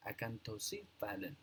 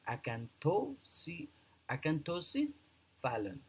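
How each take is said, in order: First: Acanthocephalan joined up, softer and falling; pronunciation demo. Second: Acanthocephalan broken into slow, higher-pitched parts; pronunciation demo. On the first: Teacher repeating acanthocephalan for learners as one softer, joined-up word. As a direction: say acanthocephalan as a-can-tho-si-fa-lan, quietly. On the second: Teacher showing learners how to pronounce acanthocephalan, broken into parts. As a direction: spell out acanthocephalan by sound, a-can-tho-si, pause, fa-lan. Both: Shown as a demonstration. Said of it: "that's the kind of a pronunciation".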